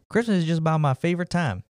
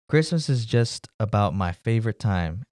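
First: It is said in the character's accent. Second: It is said in the speaker's plain voice.

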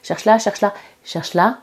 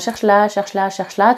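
First: The phrases slow down with a pause. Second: The phrases come at a steady, even pace. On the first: The hiding place is right here. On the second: Nothing is hidden here.

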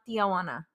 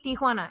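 First: The word starts with 'Tia', adding a vowel. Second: The word starts with a short 'Ti' sound. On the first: The speaker calls it wrong. "there's no A after the I" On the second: The speaker calls it right. "it's literally Tijuana"

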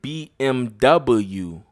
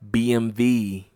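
First: The final letter is said as double-u. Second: The final letter is said as vee. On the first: The speaker calls it wrong. "People pronounce it BMW" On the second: The speaker calls it right. "the correct pronunciation is BMV"

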